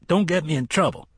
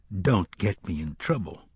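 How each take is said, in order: First: Quick, higher-pitched warning; brusque warning. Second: Measured, unhurried echo of a warning; remembered warning. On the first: Acted. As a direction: rattle it off as a brisk order. Cook shooing the boys off. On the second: A narrator's reading. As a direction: recall the words evenly, without urgency. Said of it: "they would both remember he'd said that".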